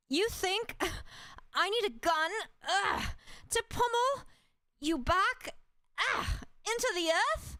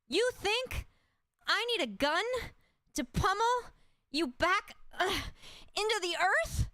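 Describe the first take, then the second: First: High, strained yells broken by grunts; angry with grunts. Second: High, strained battle cry; passionate anger. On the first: Fighter smashing her fists into a monster, angry with grunts. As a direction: grunt through each blow. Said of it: "Passionate anger, sounds of grunts". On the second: Fighter smashing her fists into a monster, passionate anger. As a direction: fight with everything left. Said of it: "Passionate anger". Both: Acted.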